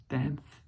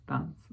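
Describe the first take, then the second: First: Dance said the English way, not French; an English-speaking learner slipping into English for Dance. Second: Danse with a nasal French an vowel; the same word redone in French. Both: Shown as a demonstration. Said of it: "correcte prononciation".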